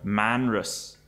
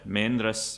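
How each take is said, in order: First: It uses the revived Manx pronunciation. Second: It uses the traditional native speakers' pronunciation. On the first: This is how the revived language usually says it. "this is tends to be pronounced Manra, Manrus in revived Manx" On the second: This is how traditional native speakers said it. "we have attested pronunciations from native speakers uh, as Maindra, Maindras"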